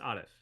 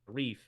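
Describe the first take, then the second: First: The name is said with an Arabic pronunciation. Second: The name is said with an English pronunciation. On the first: "pronunciation uh, attached to the language that the, that my name is from, Arabic" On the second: "I say Arif, and uh, it's just because I'm anglicized"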